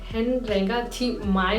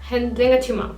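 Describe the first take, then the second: First: The phrase is spoken slowly with each word separate. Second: The phrase is spoken quickly with the words run together. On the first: The speaker calls it wrong. "नहीं कह रही हूँ" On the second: The speaker calls it right. "बहुत ही स्पीड में"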